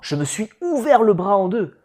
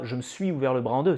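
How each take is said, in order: First: It is said with lively, emotional expression. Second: It is said flatly, without any emotion. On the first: The speaker calls it right. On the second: The speaker calls it wrong. "c'est pas"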